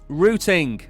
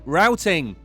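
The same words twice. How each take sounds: First: Routing is said in a British accent. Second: Routing is said in an American accent.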